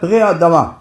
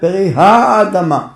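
First: The H sound at the start is dropped. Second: The H sound at the start is pronounced. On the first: The speaker calls it wrong. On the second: The speaker calls it right.

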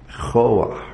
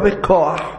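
First: The middle consonant is a soft ch sound. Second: The middle consonant is a hard k sound. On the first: The speaker calls it right. "זה באמצע מילה, זה רפה" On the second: The speaker calls it wrong. "לא בכוח"

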